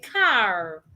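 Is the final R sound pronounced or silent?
pronounced. The final R sound is clearly pronounced. "An American person will say car"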